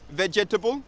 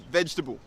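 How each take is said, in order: First: The second syllable is fully pronounced. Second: The second syllable is dropped. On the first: The speaker calls it wrong. "It's not vegetable" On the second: The speaker calls it right. "Get rid of that second syllable"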